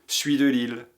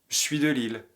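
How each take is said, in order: First: The pronoun is contracted into the verb. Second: The same.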